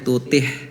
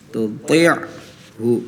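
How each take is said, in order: First: The throat 'ain' sound is left out. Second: The throat 'ain' sound is clearly pronounced. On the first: The speaker calls it wrong. "tadi bacanya tutih ya" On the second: The speaker calls it right. "harusnya ain"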